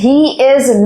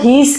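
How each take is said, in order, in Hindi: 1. यह दो अलग-अलग पूरे शब्दों की तरह बोला जाता है। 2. यह एक छोटे, जुड़े हुए शब्द की तरह बोला जाता है। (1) "नेचुरल रिदम नहीं है" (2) "इसको हीज कहते हैं"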